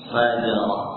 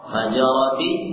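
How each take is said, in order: First: The word ends with an h sound. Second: The word ends with a t sound and vowel. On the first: The reader stops on this word. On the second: The reading continues without stopping.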